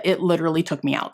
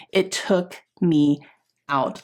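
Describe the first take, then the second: First: Said in the usual way. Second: Drawn out, pausing before "out"; slow emphatic repeat. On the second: Real, not acted. Telling viewers how badly the injury hit, slow and emphatic.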